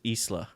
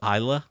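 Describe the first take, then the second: First: It does not sound like 'island' at the start. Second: It sounds like 'island' without the final 'nd'. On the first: "other people pronounce it Isla" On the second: "like island, but without the N D"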